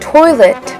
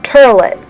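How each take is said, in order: First: It has a standard pronunciation. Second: It has a New York-like New Orleans pronunciation.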